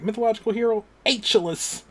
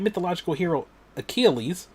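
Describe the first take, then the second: First: The name is said like Aeschylus. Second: The name is said as Achilles. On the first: "he did not know how to pronounce it. So he was like" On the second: "it said mythological hero Achilles"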